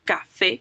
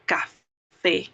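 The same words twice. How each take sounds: First: "café" more joined up, stress on "fé"; stress on final syllable. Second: "café" broken as ca... fé with a clear pause; split, final-syllable stress. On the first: Teacher repeats the example for students, "café" stressed at the end. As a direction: say "café" with only a slight break, leaning on the final é. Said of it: "que tiene un acento en la última E". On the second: Teacher shows where the accent falls, "café" split in two. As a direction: separate "café" into two beats, landing on "fé". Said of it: "en la última sílaba vamos a entonar la voz".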